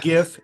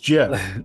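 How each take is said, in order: First: The G is said as a hard G. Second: The G is said as a soft G. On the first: The speaker calls it wrong. "It's not GIF" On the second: The speaker calls it right. "it's GIF"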